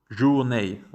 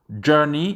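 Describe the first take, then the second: First: The word is given a French-like pronunciation. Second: The word is given an English pronunciation. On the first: The speaker calls it wrong. "et non pas journée. Ça, c'est une très grave erreur" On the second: The speaker calls it right. "Ça se prononce journey"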